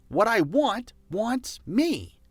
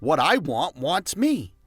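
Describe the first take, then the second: First: What I want wants me lifted higher and drawn out slowly; higher, slower repeat. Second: Said in the usual way. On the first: Shown as a demonstration. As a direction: say it again, higher and slower with conviction. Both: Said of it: "you can also say it like this".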